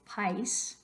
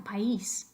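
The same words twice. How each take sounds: First: "país" squashed into one syllable, like "pice". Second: "país" in two syllables, stressed on the í. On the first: Teacher shows what we don't say, "país" as one syllable. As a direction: glide the a of "país" into the i. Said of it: "No queremos decir". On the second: Teacher introduces the next word, "país" in two syllables. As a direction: break "país" apart as pa-EES. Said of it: "Next line". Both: Shown as a demonstration.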